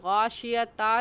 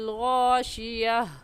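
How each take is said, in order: First: The word ends with a full 'ta' syllable. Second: The word ends with a soft 'h' sound. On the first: The speaker calls it wrong. "हम गाशियता नहीं कहेंगे" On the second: The speaker calls it right. "वक़फ़ की सूरत में हा बन जाती है"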